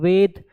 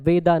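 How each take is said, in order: First: The word ends on a bare consonant. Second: The word ends with an added final vowel. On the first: The speaker calls it right. "जैसे वेद होता है" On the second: The speaker calls it wrong. "वेदा नहीं होता"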